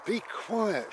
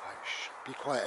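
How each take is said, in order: First: High-pitched, scolding command; exasperated parent. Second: Gentle, protective shush; caring mum hushing. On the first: Parent silencing a screaming child, exasperated scolding. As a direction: tell a rowdy child off. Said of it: "And your parents said". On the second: Mum shushing everybody for her ill child, gently protective. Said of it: "and your mum said". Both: Acted.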